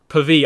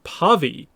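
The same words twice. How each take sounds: First: The first vowel is short and barely emphasized. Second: The first vowel is full and emphasized. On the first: The speaker calls it right. "just Pavi, almost like Pali" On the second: The speaker calls it wrong. "not Pavi"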